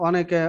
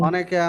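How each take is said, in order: No difference in how they are said.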